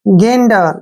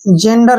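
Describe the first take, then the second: First: The word begins with a hard G sound. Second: The word begins with a soft J sound. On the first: The speaker calls it right. "जी का उच्चारण होगा वो ग के रूप में होगा" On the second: The speaker calls it wrong. "जेंडर नहीं पढ़ना है"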